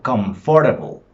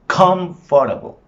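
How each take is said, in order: First: "Comfortable" with FOR leaned on; stress off first syllable. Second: "Comfortable" with high, loud COM, then a break; stress on first syllable. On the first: Teacher offering the word for checking, com-FOR-table for "Comfortable". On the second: Teacher showing the stressed syllable, high loud COM in "Comfortable". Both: Shown as a demonstration.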